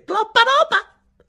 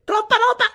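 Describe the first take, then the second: First: Very high, slow, stretched exclaim; drawn-out laughing owner. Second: Very high, quick exclaim; laughing owner. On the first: Chinese owner laughing at the smaller order, slow high squeal. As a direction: stretch it out in mock disbelief. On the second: Chinese owner laughing at the order, quick high squeal. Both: Retold or imitated.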